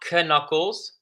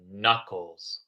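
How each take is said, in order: First: The K at the start is pronounced. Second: The K at the start is silent. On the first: The speaker calls it wrong. "it's not knuckles" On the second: The speaker calls it right. "We do not hear the K"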